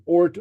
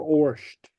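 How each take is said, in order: First: "Ort" ending in a plain t; variant pronunciation. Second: "Orsht" with sh before the t; preferred pronunciation. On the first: Teacher showing learners the other pronunciation, "Ort" with plain t. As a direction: say "Ort" with no sh before the t. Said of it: "you'll hear different pronunciations". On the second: Teacher giving learners own pronunciation, "Orsht" with sh. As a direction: say "Orsht" with a hushing sh into t. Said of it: "I pronounce it Orsht". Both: Shown as a demonstration.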